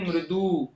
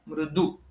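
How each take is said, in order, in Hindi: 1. अंतिम स्वर दीर्घ है। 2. अंतिम स्वर ह्रस्व है। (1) "मृदु करेंगे तो वो दीर्घ हो गया।" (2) "दू जो है वो ह्रस्व है"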